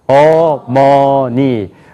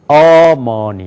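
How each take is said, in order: First: All syllables have equal pitch, loudness and length. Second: The stress is on the first syllable. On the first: "높이가 같아요. 크기도 같아요. 길이도 같아요" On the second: "앞에가 강조가 되면은"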